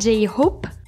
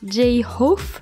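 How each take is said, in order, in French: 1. Le nom se termine par un son P. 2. Le nom se termine par un son F. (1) "et non pas J-Hope" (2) "il dit J-Hope"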